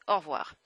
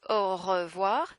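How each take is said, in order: First: "au revoir" squeezed into or-vwar; "au revoir" in two linked syllables; contracted au revoir. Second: "au revoir" with the middle "re" fully voiced; "au revoir" drawn out as oh-ruh-vwar; full, separated syllables. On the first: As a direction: drop the middle vowel of "au revoir". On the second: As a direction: spell out "au revoir" in three syllables. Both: Shown as a demonstration. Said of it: "notice, au revoir becomes au revoir".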